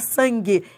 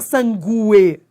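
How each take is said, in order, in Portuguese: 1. Não há som de U depois do G. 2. Há um U vogal separado depois do G. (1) "você fala sangue. Esse U não é pronunciado" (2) "Você não fala sangue"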